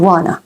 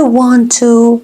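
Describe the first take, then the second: First: "wanna" with the t dropped; reduced form. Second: "want to" with both t sounds; full form. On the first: Teacher showing how Americans say it, reduced. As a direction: blend it to "wanna". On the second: Teacher naming the phrase before reducing it, full form. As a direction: say "want to" unreduced. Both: Shown as a demonstration.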